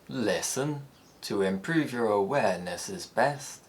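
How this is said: The pitch falls gradually, then rises at the end. "it has a falling head ... before rising on the final syllable of the phrase"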